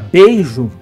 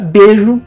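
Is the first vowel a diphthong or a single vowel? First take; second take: diphthong; single vowel. First: The first syllable has the full diphthong 'ei'. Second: The first syllable has a single vowel 'e'. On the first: This is the written, standard form. "na forma escrita" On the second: This is the everyday spoken form. "na língua falada"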